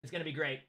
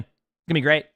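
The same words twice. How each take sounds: First: Much softer aside with "gonna" leaned on; under-the-breath "It's gonna be great"; sarcastic mutter. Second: Mock cheer about the "great" drama; sarcastic. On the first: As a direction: mutter it to yourself, dry and ironic. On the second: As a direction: ironic "gonna be great". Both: Shown as a demonstration. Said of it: "people somehow complaining".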